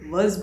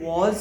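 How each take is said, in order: First: The vowel is a short reduced 'uh' sound. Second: The vowel is a full open 'aw' sound. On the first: The speaker calls it right. "वज़ बोलते हैं" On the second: The speaker calls it wrong. "वॉज नहीं बोलते"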